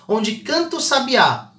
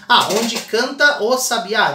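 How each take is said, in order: First: "canta o" run together into one syllable; natural elision. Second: "onde canta o sabiá" slow, every vowel apart, "canta o" not joined; overly separated. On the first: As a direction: say it as people really speak. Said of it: "tradicional na nossa fala". ("canta o" juntando as vogais) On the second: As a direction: stiff robotic syllable split. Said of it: "Ninguém fala assim". ("canta o" separado, jeito artificial) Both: Shown as a demonstration.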